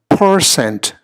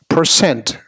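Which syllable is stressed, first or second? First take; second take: first; second. First: The stress is on the first syllable. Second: The stress is on the second syllable. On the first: The speaker calls it wrong. "we put the emphasis on the first syllable instead" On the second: The speaker calls it right. "the emphasis really ought to be on the second syllable"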